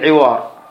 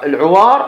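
First: The first vowel is an i sound. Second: The first vowel is an a sound. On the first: "وتقرأ حتى بالكسر" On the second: "بفتح العين"

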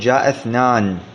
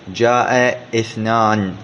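First: The words link with no glottal stop. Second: A glottal stop is pronounced before 'ithnan'. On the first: The speaker calls it right. "تقول جاء اثنان، هذه الهمزة همزة وصل لا همزة قاطع" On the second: The speaker calls it wrong. "لا تقول جاء اثنان، خطأ"

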